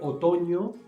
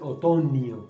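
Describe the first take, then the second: First: The middle consonant is a single blended ñ sound. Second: The middle consonant is a separate n plus i. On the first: The speaker calls it right. "en vez de decir otoño" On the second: The speaker calls it wrong. "dicen otoño ... ese error de quitar la mio"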